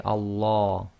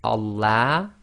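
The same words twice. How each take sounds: First: Allah with a dark, full-mouthed "law"; heavy L in Allah. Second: Allah with a light "la" as in lamb, left rising. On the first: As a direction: say Allah with the back vowel of large. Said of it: "or we could say Allah". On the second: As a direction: say Allah with a bright front "a" on the end. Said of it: "we've got a choice here". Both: Shown as a demonstration.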